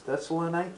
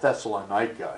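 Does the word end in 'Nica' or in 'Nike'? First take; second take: Nike; Nica. First: The word ends with a 'Nike' sound. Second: The word ends with a plain 'nica' sound. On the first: The speaker calls it right. "it's Thessalonica. And that's the way they'll pronounce it" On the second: The speaker calls it wrong. "it's not Thessalonica"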